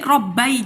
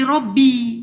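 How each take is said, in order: First: The word ends with an 'ai' diphthong. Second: The word ends with a long 'ee' vowel. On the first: This is the original underlying form. "Jadi aslinya Robbai aslinya" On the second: This is the form actually used in speech. "Maka jadi Robbi"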